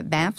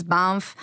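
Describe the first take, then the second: First: Said in the usual way. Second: "Banff" said the French way, with a nasal vowel; "Banff" with a nasal French-style a; French accent. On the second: Real, not acted. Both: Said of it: "sorry, my little French accent".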